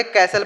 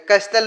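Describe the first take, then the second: First: कैसल said kaa-sal with no t at all; silent t. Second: कैस्टल with the t sounded, kass-tal; wrong pronunciation. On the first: Teacher giving students the right way to say castle, t silent. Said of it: "कैसल पढ़ेंगे". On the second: Teacher showing students the wrong way to say castle, t sounded. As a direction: say कैस्टल pronouncing the t clearly as the wrong way. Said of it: "कैस्टल नहीं पढ़ेंगे". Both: Shown as a demonstration.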